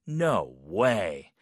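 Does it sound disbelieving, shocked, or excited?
disbelieving. It sounds doubtful and disbelieving.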